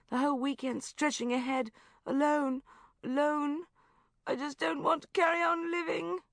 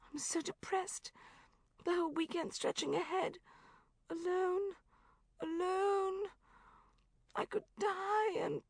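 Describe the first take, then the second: First: Despairing lament. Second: High but softer, deflated moan; softer despairing lament. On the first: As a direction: wail it as the end of the world. Friend in despair on phone. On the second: Friend repeating her misery on the phone, high but softer. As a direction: sink into it, quieter and limp. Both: Acted.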